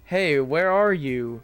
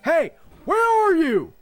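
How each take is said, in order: First: It is asked calmly as a plain question. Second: It is yelled loudly and forcefully.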